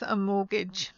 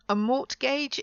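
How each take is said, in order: First: The T in the middle is silent. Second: The T in the middle is pronounced. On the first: The speaker calls it right. "it's a silent T in the middle of this word" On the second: The speaker calls it wrong. "it's not a mortgage"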